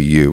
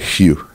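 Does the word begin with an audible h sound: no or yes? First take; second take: no; yes. First: The word starts directly with the vowel. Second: The word starts with an h sound. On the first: This is how the word is spoken. "when I say the word you, I just say you" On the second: This is how the word is sung. "I have to put an H on the front of it"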